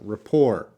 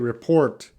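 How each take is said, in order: First: The word ends without any T sound. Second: The word ends with a pronounced T sound. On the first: The speaker calls it right. "That T is silent" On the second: The speaker calls it wrong. "you see the T and you want to say report. Doesn't work that way"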